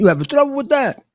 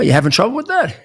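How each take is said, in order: First: Put-on high, quick Italian-accented challenge; Italian-accented question, pitched right up. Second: Said in the usual way. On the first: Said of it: "in his Italian accent". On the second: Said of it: "Or he would say".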